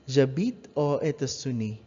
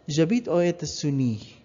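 The two takes are said the same way.

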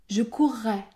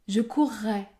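Both takes have the same delivery.

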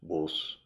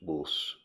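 First: It is said in a Midlands or Yorkshire accent. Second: It is said in a Midlands or Yorkshire accent.

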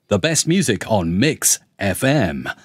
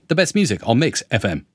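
First: FM is given strong emphasis at the end. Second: FM gets no special emphasis at the end. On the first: The speaker calls it right. "So I'd know how to say that" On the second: The speaker calls it wrong. "whereas the AI would be"

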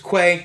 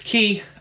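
First: The word is pronounced like 'kway'. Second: The word is pronounced like 'key'. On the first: "Another one was Quay" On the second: "One pronunciation was key"

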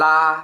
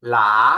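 First: It is said with the first tone. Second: It is said with the second tone. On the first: "เสียงที่ 1" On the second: "เสียงที่ 2"

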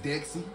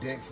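First: The name is said with two syllables. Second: The name is said with one syllable. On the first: "I guess Dexy" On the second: "or we can have the Y be silent. So Dex"

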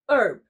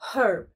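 First: The word starts with a vowel sound and no H sound. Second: The word starts with a clear H sound. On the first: This is the American English way. "Especially in American English, the H is silent, so it's herb" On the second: This is the British English way. "in British English, the H is pronounced, making it herb"

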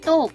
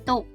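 First: The syllable is said with a falling tone. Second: The syllable is said with a low tone. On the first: "เสียงโท" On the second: "ได้แก่เสียงเอก"

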